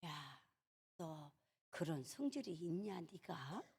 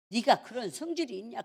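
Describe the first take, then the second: First: Very soft, low murmur to oneself; hushed, low inner voice; quiet self-reproach. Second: Said in the usual way. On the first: Retold or imitated. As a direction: muse under your breath in disbelief. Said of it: "그러고는 가만히".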